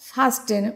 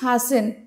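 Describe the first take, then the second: First: The t sound is pronounced. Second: The t sound is silent. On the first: The speaker calls it wrong. "Not ফাস্টেন" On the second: The speaker calls it right. "এখানে কিন্তু টি এর যে উচ্চারণটা এটা উচ্চ থাকে, তো আমরা কি বলবো?"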